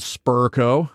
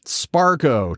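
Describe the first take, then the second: First: The first syllable sounds like spur. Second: The first syllable sounds like spar. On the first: "Versions of it wrong included Spurco" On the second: "Sparco, too. Tons of oddball stuff"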